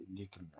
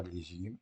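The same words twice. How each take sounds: First: "légumes" with a hard g; correct pronunciation. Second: "légumes" with a soft g; wrong pronunciation. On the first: Teacher correcting the misreading for pupils, "légumes" with hard g. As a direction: say "légumes" with g as in "gare". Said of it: "on dit pas légumes". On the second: Teacher showing pupils what not to say, "légumes" with zh sound. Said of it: "on dit pas". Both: Shown as a demonstration.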